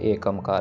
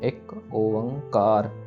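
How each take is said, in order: First: A short 'a' vowel follows 'ek'. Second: A long 'o' vowel follows 'ek'. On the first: The speaker calls it wrong. "ना ही यह एकमकार है" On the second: The speaker calls it right. "ओ लंबा फिर अंकार"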